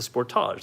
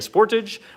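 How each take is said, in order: First: It has a Canadian pronunciation. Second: It has an American pronunciation. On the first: This is how it is said in Canada. "but this is the Sportage. That's what it's called" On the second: This is how it is said in the United States. "when I was in L A, we looked at the uh, Sportage"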